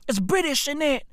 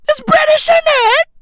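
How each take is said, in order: First: Said in the usual way. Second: Very high, loud British yell; mock-British shouting. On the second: Comic hammering his British punchline, high shouting. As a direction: shriek the catchphrase at full tilt.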